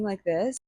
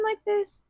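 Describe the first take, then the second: First: The voice is lower and normal. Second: The voice is high and childlike. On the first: This is how she sounds now. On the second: This is how she usually talked.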